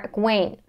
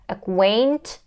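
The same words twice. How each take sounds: First: The final T sound is left out. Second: The final T sound is clearly pronounced. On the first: "or we can drop the T" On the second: "either a true T sound"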